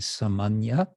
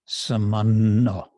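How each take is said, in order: First: The word ends with a 'nya' sound. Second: The word ends with a doubled 'nno' sound. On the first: This is the Sanskrit form. "This in Sanskrit, it would be samanya" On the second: This is the Bengali form. "in Bengali, you kind of mentally turn the Y into another, an additional N. So it becomes samanno"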